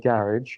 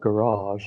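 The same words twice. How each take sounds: First: It is said with a British pronunciation. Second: It is said with a North American pronunciation.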